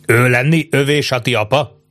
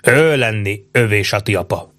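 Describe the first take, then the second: First: "Ő lenni övé Sati apa" lifted into a question; questioning rise. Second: "Ő lenni övé Sati apa" stated with a falling end; confirming statement. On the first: Checking whose father he is, "Ő lenni övé Sati apa" as a rising question. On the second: Chief confirms the father, "Ő lenni övé Sati apa" as a falling statement. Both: A narrator's reading. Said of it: "erősítette meg Nauhau".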